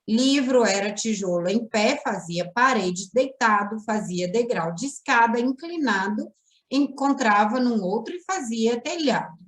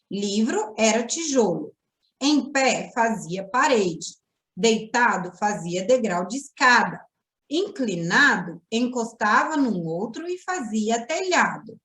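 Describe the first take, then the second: First: It is read running on without punctuation pauses. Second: It is read with pauses at the punctuation.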